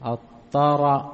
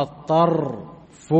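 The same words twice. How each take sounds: First: الطرف as ṭaraf, with a short a vowel after the ra; open ra. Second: الطرف as ṭarf, ra with no vowel after it; silent ra. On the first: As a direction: say الطرف as ṭa-raf, open fatha on the ra. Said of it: "بفتح الراء". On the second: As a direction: say الطرف as ṭarf, closed ra with sukun, slowly. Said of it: "بسكون الراء". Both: Shown as a demonstration.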